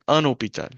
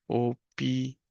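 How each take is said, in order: First: Said in the usual way. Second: Syllable-by-syllable dictation. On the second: Shown as a demonstration. Teacher writing the masculine noun for learners, syllable-by-syllable dictation. Word broken up while writing.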